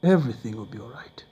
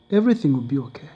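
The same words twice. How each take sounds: First: Soft whispered reassurance; whispered comfort. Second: Fast, brisk comfort; quick reassurance. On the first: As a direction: hush him gently. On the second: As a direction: rush the reassurance. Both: Retold or imitated. Widow comforts him.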